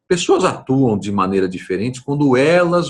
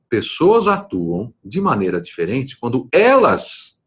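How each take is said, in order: First: The word elas gets no special emphasis. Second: The word elas is strongly emphasized.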